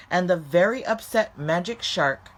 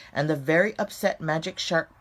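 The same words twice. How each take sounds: The two takes are said the same way.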